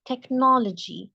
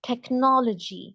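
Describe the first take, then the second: Both takes have the same delivery.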